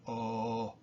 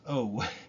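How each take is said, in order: First: The vowel stays steady without any glide. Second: The vowel glides toward an oo sound. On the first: This is how Spanish speakers say it. "the O in, in Spanish is pure, just a oh" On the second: This is how English speakers say it. "that's like an English O"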